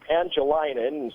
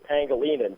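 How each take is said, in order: First: The name is said with an anglicized pronunciation. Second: The name is said with the local pronunciation. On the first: This imitates an outsider's mispronunciation. The speaker calls it wrong. "Leonard Nimoy like just murders the local Chamorro names" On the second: This is how the name is really said. The speaker calls it right. "it's actually Pangilinan"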